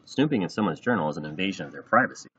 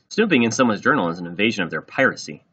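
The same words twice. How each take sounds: First: Said in the usual way. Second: "piracy" said in place of privacy, louder; louder reading, ending on "piracy" for privacy; mispronounced word. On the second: A narrator's reading. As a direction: say "piracy" confidently as the wrong word. Re-read with the child's mistaken word.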